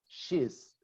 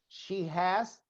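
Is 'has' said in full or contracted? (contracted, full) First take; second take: contracted; full. First: Has is shortened and joined to she. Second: Has is said as a full separate word.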